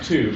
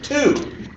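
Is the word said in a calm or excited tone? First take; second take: calm; excited. First: It is said in a plain, calm tone. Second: It is said in a very excited tone. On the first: The speaker calls it wrong. "Not, not two" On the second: The speaker calls it right. "but two. You know, with the implied exclamation mark"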